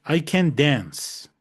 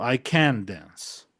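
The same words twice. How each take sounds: First: "I can dance" slow, weight on "dance", can stays light; stress on dance. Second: "I can dance" slow, weight on "can"; stress on can't. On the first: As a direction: lean on the verb "dance". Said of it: "La fuerza de voz está en el verbo, dance". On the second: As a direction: hit "can" hard, let "dance" fall away. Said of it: "¿Dónde está la fuerza de la voz? ... aquí". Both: Shown as a demonstration.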